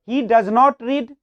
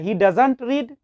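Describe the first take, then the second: First: Does not is said as two full words. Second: Does not is contracted into one word. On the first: "डज नॉट" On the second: "डज नॉट को short में ... डजंट"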